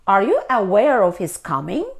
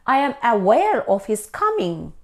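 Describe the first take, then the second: First: "Are you aware of his coming?" with "you" leaned on and the pitch rising at the end; question rise. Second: "I am aware of his coming" as a flat statement, pitch falling at the end. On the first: Teacher turns the statement into a question, rising tune. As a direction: ask it, lifting "coming" up at the end. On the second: Teacher models the statement, falling tune at the end. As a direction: state it plainly, "aware" leaned on and dropping to a close. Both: Shown as a demonstration.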